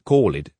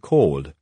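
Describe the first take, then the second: First: The ending is an extra 'id' syllable. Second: The ending adds no extra syllable. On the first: The speaker calls it wrong. "You cannot say called" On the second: The speaker calls it right. "for called"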